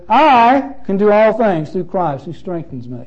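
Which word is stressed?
I. The stress falls on the word I.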